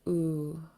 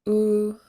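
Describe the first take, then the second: First: The long vowel is said on a low pitch. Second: The long vowel is said on a high pitch. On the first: "Long and low" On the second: "and then the high tone version"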